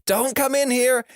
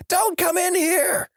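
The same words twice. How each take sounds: First: High-pitched yelled warning, acted out; high play-acted cry of alarm; mock yell. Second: Even higher, slow wailed warning; long high-pitched play-acted cry; drawn-out mock yell. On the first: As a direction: call out high, warning friends away. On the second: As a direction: stretch each word in a very high yell. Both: A narrator's reading. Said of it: "with him yelling".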